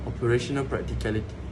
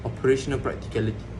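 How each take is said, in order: No difference in how they are said.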